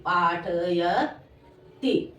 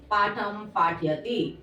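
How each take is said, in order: First: पाठयति stretched very slowly and low; syllable by syllable. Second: Said in the usual way. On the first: Shown as a demonstration. Teacher dictating to pupils, पाठयति slowly syllable by syllable. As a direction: sound out पाठयति with long, separated syllables.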